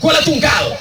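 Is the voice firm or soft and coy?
firm. It is said in a flat, firm voice.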